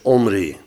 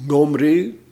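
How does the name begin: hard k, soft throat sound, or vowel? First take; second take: vowel; soft throat. First: The name starts directly with a vowel. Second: The name starts with a soft throat sound. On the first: The first letter is left out. "Dus laten we hem gewoon weg" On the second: The first letter is given its soft reading. "als hij zacht wordt uitgesproken"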